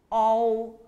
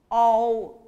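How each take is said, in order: Both takes have the same delivery.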